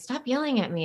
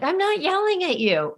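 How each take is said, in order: First: Imitating a kid's protest. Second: Much higher, exasperated denial; indignant mom. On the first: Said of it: "you guys". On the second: Retold or imitated. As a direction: protest as an offended mother. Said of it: "And I'm like".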